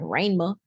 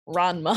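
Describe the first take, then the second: First: The name is said with a drawled Southern accent. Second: The name is said in a plain accent.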